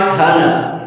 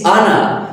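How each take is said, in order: First: The word begins with an H sound. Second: The word begins with a vowel sound. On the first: The speaker calls it wrong. "so it is not honor" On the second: The speaker calls it right. "it is honor because here it starts from a sound"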